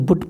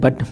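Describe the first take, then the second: First: The vowel is rounded, like in 'put'. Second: The vowel is open, like in 'cut'. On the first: This is how the spelling would suggest reading it. "इसको पढ़ेंगे तो बुट पढ़ेंगे" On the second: This is how the word is actually spoken. "मुख से जबकि इसका उच्चारण है बट"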